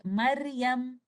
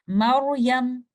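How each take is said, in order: First: Maryam with a thin, light R. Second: Maryam with a thick, full-mouthed R, loud and deliberate; heavy ra. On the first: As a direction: say 'Maryam' slowly with the R left light. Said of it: "Instead of saying Maryam". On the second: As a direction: model 'Maryam' firmly with a heavy dark R. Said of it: "We will say it like this". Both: Shown as a demonstration.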